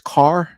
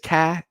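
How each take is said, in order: First: The final r is pronounced. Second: The final r is dropped, Boston style.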